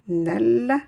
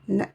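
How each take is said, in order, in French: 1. Le son L est clairement prononcé. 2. Le L se fond dans un son S doublé. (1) "non pas en disant nel" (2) "mais en disant nes"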